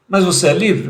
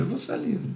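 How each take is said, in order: First: "Mas você é livre?" asked loud, with weight on "Mas"; loud probing question; louder question. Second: "Você é livre." said much softer and higher, lifting on "Você"; soft higher confirming answer; soft affirmation. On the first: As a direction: challenge them with "Mas você é livre?", punching "Mas". Asks then answers himself. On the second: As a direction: reassure with "Você é livre.", quiet and gentle. Answers own question. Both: Shown as a demonstration.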